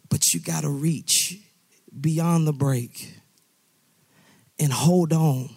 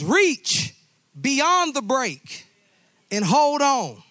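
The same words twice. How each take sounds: First: Gentle reassurance. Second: High, loud, reach stretched out slowly; urgent shout. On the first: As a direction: soothe him while you urge him on. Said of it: "Hey, I know, daughter, son, I know". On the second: Father urging his drowning son to reach, loud high shout. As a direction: belt it like a rescue call. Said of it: "The father says". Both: Acted.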